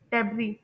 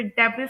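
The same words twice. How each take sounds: First: डेब्री ending in ee, no s; silent s. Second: डेब्रिस with the final s sounded; wrong pronunciation. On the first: Teacher showing learners the word, silent s in डेब्री. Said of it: "एस letter है वो silent होगा". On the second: Teacher quoting a common mistake, sounded s in डेब्रिस. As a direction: say "डेब्रिस" wrongly, voicing the written s at the end. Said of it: "बिल्कुल wrong pronunciation है". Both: Shown as a demonstration.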